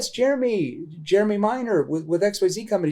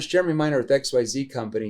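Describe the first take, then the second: First: It is said slowly with hesitant repeated words. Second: It is said quickly in a flat monotone. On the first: The caller sounds familiar and unscripted. The speaker calls it right. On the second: The caller sounds like a telemarketer. The speaker calls it wrong.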